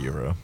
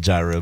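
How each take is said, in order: First: The word starts with a 'y' sound. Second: The word starts with a 'j' sound. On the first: This is the way the speaker was told is correct. "but I call it a euro" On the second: This is the Americanized way to say it. "It's fun to say gyro"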